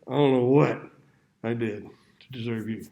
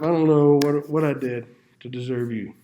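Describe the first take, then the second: First: It is said with a sarcastic, weary tone. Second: It is said warmly and sincerely. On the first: The speaker feels burdened by the spouse. "Ten years later" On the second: The speaker feels lucky to have the spouse. "When I got married, I told my wife"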